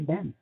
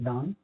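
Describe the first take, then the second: First: It is said in an American accent. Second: It is said in a British accent.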